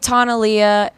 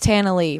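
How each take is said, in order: First: The last name has two syllables, ending in ah. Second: The last name has one syllable, ending in ee. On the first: It sounds fancy. The speaker calls it wrong. "People call me Tana Leah, and that's just fancy" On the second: It sounds plain and country. The speaker calls it right. "So it's just Tana Lee, real country"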